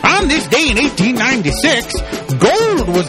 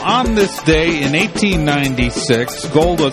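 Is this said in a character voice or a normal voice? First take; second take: character; normal. First: It is said in a put-on character voice. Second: It is said in the speaker's normal voice.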